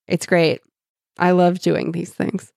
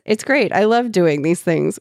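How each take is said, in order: First: It is read in a heavily sarcastic tone. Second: It is read in a plain, neutral tone.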